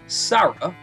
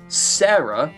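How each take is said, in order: First: The name is said with an Italian pronunciation. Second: The name is said with an English pronunciation. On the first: This is how the name is said in Italy. "in Italy is the uh, correct pronunciation of it" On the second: This is how the name is said in the Western world. "the correct pronunciation of it in the Western world"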